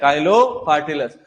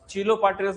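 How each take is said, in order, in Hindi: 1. नाम 'kai' से शुरू होता है। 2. नाम 'chee' से शुरू होता है। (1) "अपन प्रोनाउंसिएट काइलो से ही करते हैं उसको" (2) "काफी सारे लोग चीलो बोलते हैं"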